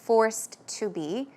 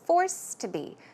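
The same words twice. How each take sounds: First: The words are separate, with the ed heard. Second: The words run together, with the ed dropped. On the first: The speaker calls it wrong. "Instead of forced to be" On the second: The speaker calls it right. "with a natural flow. So you will not hear the ed there"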